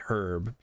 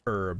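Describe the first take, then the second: First: The word begins with an audible H sound. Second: The word begins without any H sound. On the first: "It's got an H in there" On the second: "because the H is silent"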